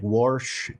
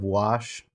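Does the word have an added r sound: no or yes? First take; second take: yes; no. First: It is said with an added r sound. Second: It is said without any r sound. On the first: "they add R's to things that aren't there" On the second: "instead of"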